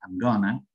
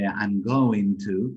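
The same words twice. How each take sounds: First: "I'm gonna" run together, reduced; reduced form. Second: "I'm going to" slow, every syllable clear; full form. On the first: Teacher showing natives reduce the phrase. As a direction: blend it into gonna. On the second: Teacher giving the unreduced phrase slowly. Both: Shown as a demonstration. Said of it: "cuando lo reducimos es I'm gonna".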